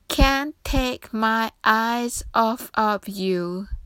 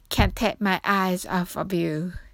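First: The phrase is read at a slow pace. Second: The phrase is read at a fast pace. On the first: "ゆっくりめでちょっと一緒に読んでみましょう" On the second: "それでは早く言ってみましょう"

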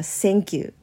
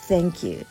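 First: The first word begins with an s sound. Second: The first word begins with a th sound. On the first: The speaker calls it wrong. "カタカナ発音でthank you" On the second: The speaker calls it right. "英語の発音はthank you ですよね"

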